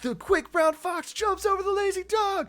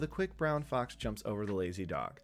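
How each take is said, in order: First: It is said in a bold, brash way. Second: It is said in a meek, subdued way.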